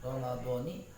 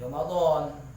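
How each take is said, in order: First: The word ends with a final 'i' vowel. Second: The word ends without a final 'i' vowel. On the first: The word is joined to the following phrase. "maka dibaca kasroh" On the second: The word stands alone without a following phrase. "Kalau tidak diidofatkan ... Itu jadi Ramadan"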